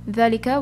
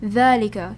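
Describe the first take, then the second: First: The first vowel is said short. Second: The first vowel is said long. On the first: The speaker calls it wrong. "So instead of" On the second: The speaker calls it right. "we pronounce it as"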